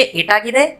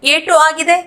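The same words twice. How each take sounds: First: एट आगिदे linked as "etaagide"; words joined. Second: Said in the usual way. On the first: Shown as a demonstration. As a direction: drop the u of etu in एट आगिदे. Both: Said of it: "इसको हम जोड़ के बोलेंगे".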